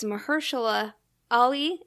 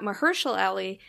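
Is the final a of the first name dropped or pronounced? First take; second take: pronounced; dropped. First: The final a of the first name is pronounced. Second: The final a of the first name is dropped. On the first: The speaker calls it right. "it's worth noting that it's Mahershala Ali" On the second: The speaker calls it wrong. "not Mahershala Ali, which is what I always thought it was"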